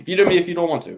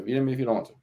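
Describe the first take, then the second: First: Louder, higher, daring him to veto; loud dare. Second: Said in the usual way. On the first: Real, not acted. To his co-host, a loud dare to veto. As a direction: throw down the challenge loudly.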